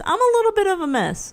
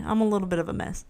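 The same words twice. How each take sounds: First: Higher, emphatic admission; sing-song little bit of a mess; playful confession. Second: Fast, softer throwaway; rushed quiet repeat; quick aside. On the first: Pretend. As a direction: own it brightly and higher. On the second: Real, not acted. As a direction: toss it off quickly. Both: Admits being a mess twice.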